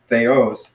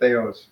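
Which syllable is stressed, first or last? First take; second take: last; first. First: The stress is on the last syllable. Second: The stress is on the first syllable. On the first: The speaker calls it right. "no, it's theos" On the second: The speaker calls it wrong. "I know I sometimes tend to say theos"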